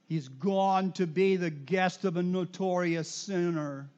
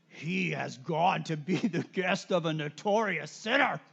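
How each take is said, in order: First: It is read in a plain, neutral way. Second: It is read in a grumbling, displeased way. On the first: The speaker calls it wrong. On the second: The speaker calls it right.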